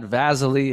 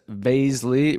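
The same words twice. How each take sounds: First: The name does not rhyme with Paisley. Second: The name rhymes with Paisley. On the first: The speaker calls it wrong. "not Vaszily" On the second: The speaker calls it right. "rhymes with Paisley"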